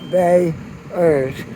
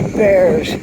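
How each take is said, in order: First: The name is said with two syllables. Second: The name is said with one syllable. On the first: This is how newcomers say it. "Like two syllables" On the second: This is how long-time locals say it. "like a grizzly bear"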